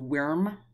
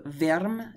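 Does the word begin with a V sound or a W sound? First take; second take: W sound; V sound. First: The word begins with a W sound. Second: The word begins with a V sound. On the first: "as opposed to worm" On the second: "I do verm"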